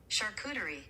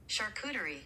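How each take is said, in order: No difference in how they are said.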